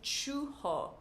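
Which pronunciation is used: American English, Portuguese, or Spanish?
Portuguese. It is said with a Brazilian Portuguese pronunciation. "If I was speaking Portuguese, I would say churro"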